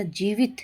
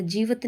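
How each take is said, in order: First: Said in the usual way. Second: जीवित ending "vat", jee-vat; wrong pronunciation. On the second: Shown as a demonstration. Teacher rejecting a mistake, जीवित said jee-vat. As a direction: swap the i of जीवित for a short a. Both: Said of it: "नहीं होता".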